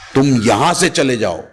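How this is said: The stress falls on the word यहां. Go anywhere else, just not this place. "अगर मैं यहां पे स्ट्रेस कर देता हूं"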